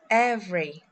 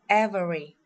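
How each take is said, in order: First: The middle vowel is dropped. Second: The middle vowel is fully pronounced. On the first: The speaker calls it right. "we will skip the vowel as we say" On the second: The speaker calls it wrong. "We don't pronounce"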